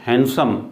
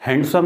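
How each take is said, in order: First: हैंडसम as "han-sum"; silent D. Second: हैंडसम as "hand-sum"; D wrongly sounded. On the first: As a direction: drop the d in हैंडसम. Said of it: "बल्कि हैंडसम". (हैंडसम में डी silent) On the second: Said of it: "हैंडसम नहीं है". (हैंडसम में डी का गलत उच्चारण) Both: Shown as a demonstration.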